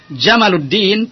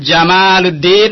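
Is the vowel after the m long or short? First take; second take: short; long. First: The vowel after the m is short. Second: The vowel after the m is long. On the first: The name means camel. The speaker calls it wrong. "Jamaluddin pendek, antum telah salah" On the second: The name means beauty. The speaker calls it right. "alhamdulillah antum telah benar"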